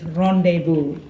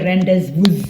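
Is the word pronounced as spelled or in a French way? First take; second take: French way; as spelled. First: It is pronounced in a French way. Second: It is pronounced as it is spelled. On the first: The speaker calls it right. "It's rendezvous. Remember, it's French" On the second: The speaker calls it wrong. "You don't say rendezvous"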